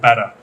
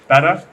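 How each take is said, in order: First: It is said in an American accent. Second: It is said in an English accent.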